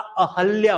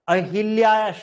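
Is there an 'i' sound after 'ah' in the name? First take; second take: no; yes. First: No 'i' vowel is heard after 'ah'. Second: An 'i' vowel is heard after 'ah'. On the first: The speaker calls it right. "अहल्या होता है" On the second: The speaker calls it wrong. "अहिल्या शब्द नहीं होता"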